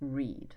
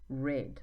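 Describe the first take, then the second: First: It is pronounced as the present-tense form. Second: It is pronounced as the past-tense form. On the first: "in the infinitive form" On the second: "In the past form"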